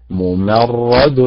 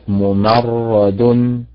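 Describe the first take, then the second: First: "ممرد" very slow, stress on the ر; correct stress. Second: "ممرد" slow, stress wrongly on the م. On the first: Teacher models correct ممرد for students. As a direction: draw out "ممرد" leaning on رد. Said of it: "رد فاعل وليست رد فاعل". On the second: Teacher models the wrong ممرد for students. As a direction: draw out "ممرد" with the weight misplaced. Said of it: "وليست". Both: Shown as a demonstration.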